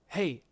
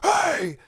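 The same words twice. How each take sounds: First: It is said at a normal, soft volume. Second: It is screamed loudly and demandingly.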